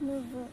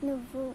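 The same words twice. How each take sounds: Both takes have the same delivery.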